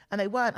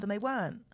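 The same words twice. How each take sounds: First: Weren't said louder, ending on a rise; emphatic repeat. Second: Said in the usual way. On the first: Shown as a demonstration. Mother losing her parents stresses weren't louder. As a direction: lean into weren't, louder, lifting at the end.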